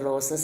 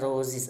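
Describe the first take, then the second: First: The word ends with an s sound. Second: The word ends with a z sound. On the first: The speaker calls it wrong. "റോസസ് അല്ല" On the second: The speaker calls it right. "അപ്പോൾ സെഡ് ആണ് വരിക"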